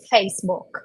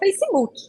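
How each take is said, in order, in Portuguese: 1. É pronunciada do jeito inglês. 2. É pronunciada do jeito do português brasileiro. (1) "a gente não fala Facebook no dia a dia" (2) "a gente fala Facebook"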